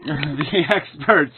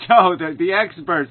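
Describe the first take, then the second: First: Slow, mocking repeat of the phrase; scornful echo; sarcastic. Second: Said in the usual way. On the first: Real, not acted. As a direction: drag out the experts with contempt. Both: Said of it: "another great word".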